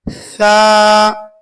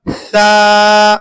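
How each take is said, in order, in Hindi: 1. व्यंजन 'th' है, जीभ की नोक बाहर निकली हुई। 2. व्यंजन 'th' है, जीभ की नोक बाहर निकली हुई।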